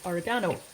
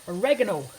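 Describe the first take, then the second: First: Said in the usual way. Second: Oregano said the American way, stressed on the second syllable, "o-REG-ano"; American pronunciation. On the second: Shown as a demonstration. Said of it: "if you're from the States".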